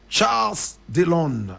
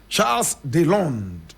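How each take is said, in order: First: The name is said with a French pronunciation. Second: The name is said with a French pronunciation.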